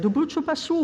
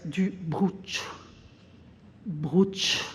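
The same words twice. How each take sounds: First: Said in the usual way. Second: "bruch" cut short, swallowing the rest of brucio; clipped mispronunciation. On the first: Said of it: "And the salesperson said". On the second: Retold or imitated. Client stumbling over the cheese name "bruch", quietly. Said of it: "The client here says".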